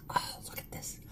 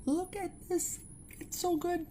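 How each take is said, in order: First: Breathy excited whisper. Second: Much higher delighted squeal; excited squeal. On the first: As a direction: hush it like a secret. Showing food, excited hush. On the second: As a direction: gush over the food up high. Showing food, delighted. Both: Real, not acted.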